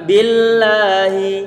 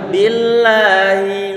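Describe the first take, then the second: Both takes have the same delivery.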